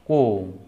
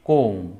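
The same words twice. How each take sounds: Both takes have the same delivery.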